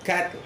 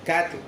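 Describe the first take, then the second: First: The t runs straight into the l. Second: The same.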